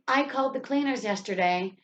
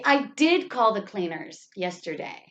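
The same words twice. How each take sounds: First: Said in the usual way. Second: Emphatic did to insist it happened; stress on did. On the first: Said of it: "instead of just saying". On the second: Shown as a demonstration. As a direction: exaggerate did, then let the rest of the sentence drop. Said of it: "you're going to say".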